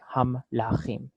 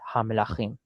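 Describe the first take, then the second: First: The m closes the first syllable, with no vowel after it. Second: A short vowel follows the m, keeping the word intact. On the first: The speaker calls it wrong. "we don't want to go like ham lachim. It doesn't sound the same as melachim anymore" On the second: The speaker calls it right. "we say ha melachim"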